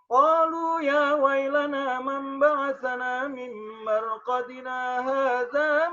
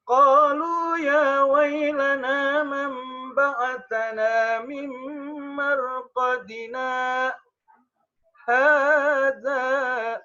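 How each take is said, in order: First: The words run on without a stop. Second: A brief stop comes before the last word. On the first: All the words seem to be the unbelievers' speech. The speaker calls it wrong. "Kalau dibaca tanpa saktah" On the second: The last word starts a different speaker's words. The speaker calls it right. "Saktah, berhenti sejenak tanpa tanpa bernafas"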